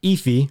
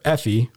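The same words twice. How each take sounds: First: "Effie" with a long ee first, EE-fee; alternative pronunciation. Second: "Effie" with a short e, EFF-ee; alternative pronunciation. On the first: Host unsure of the accuser's name, "Effie" said EE-fee. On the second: Host unsure of the accuser's name, "Effie" said EFF-ee. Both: Shown as a demonstration. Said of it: "not sure how to pronounce it".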